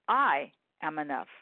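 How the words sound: The stress falls on the word I.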